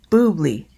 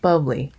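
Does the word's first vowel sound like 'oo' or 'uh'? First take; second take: oo; uh. First: The first vowel is a long 'oo' sound. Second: The first vowel is a short 'uh' sound. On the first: The speaker calls it right. "B U B L Y is boobly" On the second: The speaker calls it wrong. "not bubbly"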